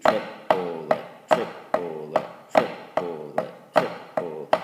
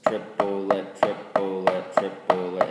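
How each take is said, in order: First: TRIPLET lower, in three spaced beats; rhythmic sounding-out. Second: TRIPLET in three even beats, "trip-po-let"; rhythmic sounding-out. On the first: Teacher voicing triplets with flams, "Triplet" lower and spaced out. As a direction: chant "Triplet" lower, each syllable on a stroke. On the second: Teacher sounding out bare triplets, "Triplet" rhythmic in three beats. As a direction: chant "Triplet" evenly, a stroke per syllable. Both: Shown as a demonstration.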